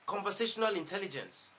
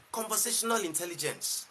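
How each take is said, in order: Both takes have the same delivery.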